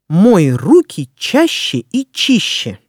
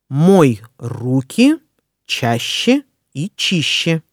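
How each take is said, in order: First: It is said fast. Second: It is said slowly.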